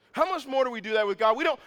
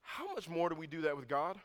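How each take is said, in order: First: Higher and louder, driving the question home; loud repeat. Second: Said in the usual way. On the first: Real, not acted. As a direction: hammer the question a second time at full voice.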